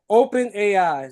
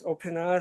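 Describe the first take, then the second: First: The end is spelled out as letters A, I. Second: The end is said as the word 'eyes'. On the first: "That's how you say it" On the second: "I think that's how you pronounce it"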